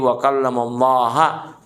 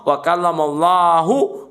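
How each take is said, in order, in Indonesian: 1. Kata Allah berakhir dengan vokal 'a'. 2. Kata Allah berakhir dengan vokal 'u'.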